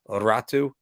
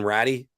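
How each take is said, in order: First: The name ends with an 'oo' sound. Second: The name ends with an 'ee' sound. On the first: "as the way the pronunciation is" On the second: "it's spelled Ratty"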